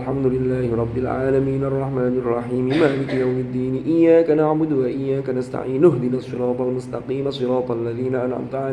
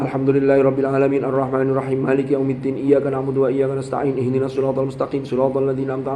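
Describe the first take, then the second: First: Linked words are quick but vowel endings are pronounced. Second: Linked words are rushed with vowel endings dropped. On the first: The speaker calls it right. "Mestinya kalau membaca cepat disambung, harokatnya harus dibaca" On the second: The speaker calls it wrong. "Tidak boleh kayak tadi"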